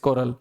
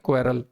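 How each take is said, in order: First: The first syllable sounds like 'ko'. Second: The first syllable sounds like 'kwe'. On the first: The speaker calls it right. "The word is कोरल" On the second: The speaker calls it wrong. "इसे अक्सर बच्चे गलत pronounce करते पाए जाते हैं"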